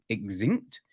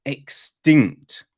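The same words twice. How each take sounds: First: "extinct" said as "eg-zinct", with a buzzing z; mispronounced word. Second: "extinct" in two careful parts, "ek-STINCT"; careful correction. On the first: Trying to name lost animals, "extinct" mispronounced with a z. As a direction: stumble on "extinct", putting a z sound in it. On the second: Correcting their own slip, "extinct" sounded out carefully. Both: Real, not acted. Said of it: "I can't pronounce a fucking word".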